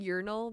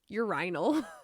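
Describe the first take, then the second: First: It is said with an American pronunciation. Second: It is said with a British pronunciation. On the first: "instead of saying urinal" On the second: "British people ... they said urinal"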